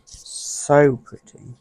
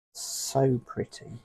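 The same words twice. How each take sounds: First: "so pretty" louder and very slowly drawn out; gushing admiration. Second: Said in the usual way. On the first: Real, not acted. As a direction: stretch "so pretty" with loud delight. Admiring a butterfly picture.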